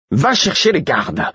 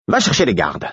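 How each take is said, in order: First: High, exasperated command; near shout. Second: Terse, higher-pitched command; dry, no-nonsense order; curt order. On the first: Murfess at the end of patience, nearly shouting. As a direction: order just short of yelling. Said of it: "que Murfess ne hurle". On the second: Murfess ordering the fool to get the guards, curt. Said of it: "dit sèchement Murfess". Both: A narrator's reading.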